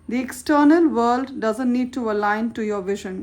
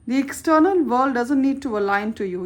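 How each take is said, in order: First: It is said slowly. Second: It is said at normal speed.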